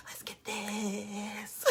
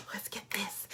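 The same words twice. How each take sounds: First: Very slow, drawn-out whisper. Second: Soft whisper, rallying the team. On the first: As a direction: stretch the whisper out, savouring it. Repeated, slower whisper. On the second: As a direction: breathe it out like a secret cheer. Whispered closing pep line. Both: Real, not acted.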